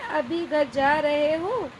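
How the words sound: It is said as a question.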